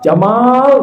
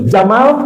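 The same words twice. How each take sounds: First: The second vowel is lengthened. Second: The second vowel is short. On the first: It means beautiful or handsome. "Kalau buat orang ganteng, ya Jamal bagus" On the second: It means camel. "kalau dibaca pendek artinya unta"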